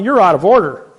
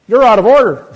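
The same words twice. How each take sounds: First: Loud, high objection; mock courtroom outburst; retold shout. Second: Much louder, much higher yell; mocking judge's outburst; judge's mock shout. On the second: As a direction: bellow it like a judge slamming down. Judge perks up and says.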